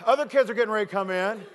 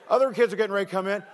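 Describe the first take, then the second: No difference in how they are said.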